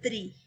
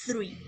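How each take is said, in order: First: "tree" with a crisp t and rolled r; tree, said clearly. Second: "three" with a soft th onset, no t; three, said clearly. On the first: Teacher showing students the word for árbol, slow and careful. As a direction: say "tree" starting on a plain t. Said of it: "la palabra árbol, perdón, es". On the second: Teacher contrasting the number with árbol, careful. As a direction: begin "three" on the tongue, not a hard t. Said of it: "esta palabra se pronuncia". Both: Shown as a demonstration.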